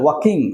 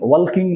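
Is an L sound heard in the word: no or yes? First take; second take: no; yes. First: The word is said without any L sound. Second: The word is said with an L sound. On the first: The speaker calls it right. "সেই এলটা silent হয়ে যায়, উচ্চারণ হয় না" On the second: The speaker calls it wrong. "না আবার"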